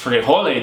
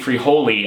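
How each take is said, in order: First: It sounds Spanish, like 'free-HO-les'. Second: It sounds anglicized, like 'free holy'. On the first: This is how the word should be said. The speaker calls it right. "it's Frijoles, dude" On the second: This imitates how someone else said it. The speaker calls it wrong. "as King basically pronounces it on the audiobook"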